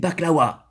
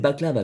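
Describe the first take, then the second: First: The middle consonant is a w sound. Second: The middle consonant is a v sound. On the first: The speaker calls it right. "On dit des baklawas" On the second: The speaker calls it wrong. "Et non pas des baklava"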